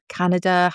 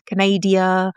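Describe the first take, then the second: First: Said in the usual way. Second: Canada said "kuh-NAY-dee-uh"; Canada as Canadia. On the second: Shown as a demonstration. Playfully saying Canada as "Canadia" for the viewers. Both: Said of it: "however you like to say it".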